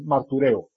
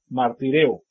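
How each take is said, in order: First: The middle vowel is an 'oo' sound. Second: The middle vowel is an 'ee' sound.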